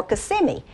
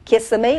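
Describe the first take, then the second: First: Kissimmee said kuh-SIM-ee; second pronunciation. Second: Kissimmee said KISS-uh-mee; first pronunciation. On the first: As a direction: stress the middle syllable of Kissimmee. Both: Shown as a demonstration. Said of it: "I wonder how you pronounce it".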